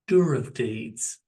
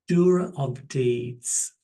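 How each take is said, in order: First: It is said more quickly. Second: It is said slowly.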